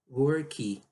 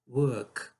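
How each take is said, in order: First: The word is said with two syllables. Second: The word is said with one syllable. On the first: The speaker calls it wrong. "duas sílabas... Você provavelmente está falando isso aqui" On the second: The speaker calls it right. "É isso"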